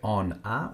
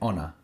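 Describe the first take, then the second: First: The two words are said as separate words. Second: The two words run together as one word. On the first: "When we say on a" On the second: "we say honor. It's a way that we link these"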